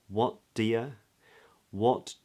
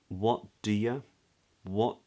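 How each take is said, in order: The two takes are said the same way.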